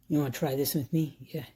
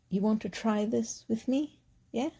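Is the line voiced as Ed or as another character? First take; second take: Ed; other character. First: It is voiced as the character Ed. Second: It is voiced as a character other than Ed.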